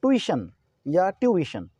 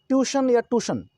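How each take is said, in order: First: ट्यूशन as tu-i-shan, then tyu-i-shan, slowly; slow three-syllable ट्यूशन with an i inside; correct tuition pronunciation. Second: ट्यूशन as tyu-shan, then tu-shan, two syllables; higher two-syllable ट्यूशन, no i sound; mispronounced tuition. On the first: Teacher giving both correct readings, slow three-syllable ट्यूशन. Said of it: "बल्कि ये है ट्यूशन". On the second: Teacher quoting students' wrong readings, ट्यूशन as tyu-shan or tu-shan. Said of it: "ये ट्यूशन या ट्यूशन नहीं है". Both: Shown as a demonstration.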